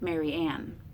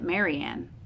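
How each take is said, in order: First: The stress is on the last syllable. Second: The stress is on the first syllable. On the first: "Anapest, un unstressed, would be something like Mary Ann" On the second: "We might say that as a dactyl"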